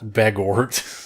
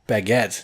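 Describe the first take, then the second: First: The last syllable sounds like 'gort'. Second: The last syllable sounds like 'get'. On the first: The speaker calls it wrong. "not bagort" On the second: The speaker calls it right. "ba- baguette"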